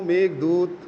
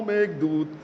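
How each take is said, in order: No difference in how they are said.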